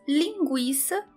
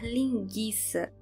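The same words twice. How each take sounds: First: The u after the g is sounded. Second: The u after the g is silent. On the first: The speaker calls it right. "mas linguiça normalmente" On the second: The speaker calls it wrong. "Não devemos falar linguiça"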